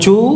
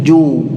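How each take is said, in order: First: It starts with a breathy ch sound. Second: It starts with a held-breath j sound. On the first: The speaker calls it wrong. "bukan cu" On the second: The speaker calls it right. "tetapi ju"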